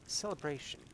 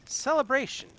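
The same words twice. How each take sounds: First: Softer, trailing echo of the word; fading echo. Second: Lifted exclamation. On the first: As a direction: let "Celebration" die away softly, lost in thought. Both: Acted. May repeats word, fading.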